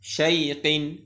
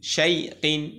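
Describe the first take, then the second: No difference in how they are said.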